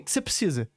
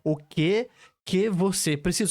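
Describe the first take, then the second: First: Some syllables of the question are dropped. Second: Every syllable of the question is pronounced. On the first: "Só que eu falei, comi umas duas sílabas"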